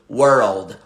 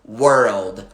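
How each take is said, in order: No difference in how they are said.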